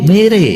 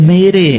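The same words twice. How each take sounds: The two takes are said the same way.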